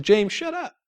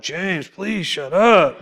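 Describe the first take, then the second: First: Short rebuke breaking into a laugh; amused quoted rebuke. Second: Slow, drawn-out mock plea to stop talking; hammed-up groan of a tired group; exasperated plea. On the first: Retold or imitated. Holy Spirit telling James to be quiet, laughing rebuke. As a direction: quote it fondly with a chuckle. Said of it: "He said". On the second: Group members begging talkative James, slow mock exasperation. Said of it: "They're like".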